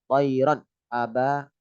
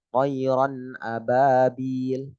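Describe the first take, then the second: First: A break cuts the n off from the next word. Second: The n runs smoothly into the next word. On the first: The speaker calls it wrong. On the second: The speaker calls it right.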